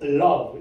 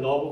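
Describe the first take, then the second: First: An extra L sound is added before the word. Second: The word starts with a plain, short Korean-style L. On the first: The speaker calls it right. "앞에 리을을 붙인다는 의미로 love 이렇게 해야지 정확한 발음이 나오잖아요" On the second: The speaker calls it wrong. "그냥 러브 그러면 잘 못 알아들어요"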